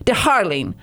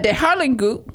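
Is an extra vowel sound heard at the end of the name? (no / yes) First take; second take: no; yes. First: The name ends cleanly with no extra vowel. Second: An extra vowel is heard after the final consonant. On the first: The speaker calls it right. "I have to be very French now. Without the all the things at the end" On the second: The speaker calls it wrong. "I hope I pronounce her name right"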